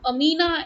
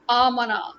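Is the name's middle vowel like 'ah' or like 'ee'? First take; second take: ee; ah. First: The middle vowel sounds like 'ee'. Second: The middle vowel sounds like 'ah'. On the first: The speaker calls it right. "from Amina" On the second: The speaker calls it wrong. "it became Amana. What is wrong with you people?"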